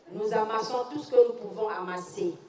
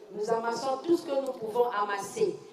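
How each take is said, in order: Both takes have the same delivery.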